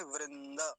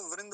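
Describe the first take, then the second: First: वृंद as "vrin-da"; वृंद in two syllables, open ending; Sanskrit pronunciation. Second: वृंद as soft "vrind"; वृंद in one syllable, no final vowel; Hindi pronunciation. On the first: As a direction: give द its vowel at the end of वृंद. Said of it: "अभी क्या बोलेंगे?". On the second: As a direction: close वृंद on the d. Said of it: "Hindi में तो वृंद बोल देते हैं". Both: Shown as a demonstration.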